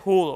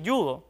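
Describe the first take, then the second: First: The word starts with a throaty h sound. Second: The word starts with a y sound. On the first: This follows how the word is written. "por su grafía... debería decirse judo" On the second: This is the usual, established way people say it. "está muy arraigado que digamos así"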